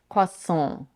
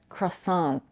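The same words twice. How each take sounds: First: It ends in a nasal vowel with no t. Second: It has an American r and a final t. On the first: "which in French is pronounced croissant" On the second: "Americans pronounce this word as croissant"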